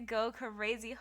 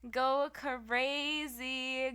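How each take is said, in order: First: Said in the usual way. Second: Slow, high stretched go crazy; drawn-out hype. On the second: Shown as a demonstration.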